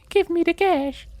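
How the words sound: It is said in a high-pitched voice. "I can't imagine a high-voiced Mafia boss either"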